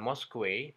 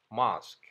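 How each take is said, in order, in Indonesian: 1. Huruf-huruf terakhir juga dibunyikan. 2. Akhirannya berhenti begitu saja, tanpa bunyi akhir tambahan. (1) "bukan mosque" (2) "hanya dibaca mosque"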